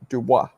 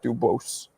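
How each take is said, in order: First: The name ends in a vowel, with no S. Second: The name ends with an audible S sound. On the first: The speaker calls it right. "the S is always silent" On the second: The speaker calls it wrong. "not Dubose"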